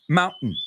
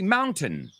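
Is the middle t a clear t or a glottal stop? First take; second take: glottal stop; clear t. First: The middle t is a glottal stop. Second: The middle t is pronounced as a clear t. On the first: "And Americans, what do we say?" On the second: "the British say mountain"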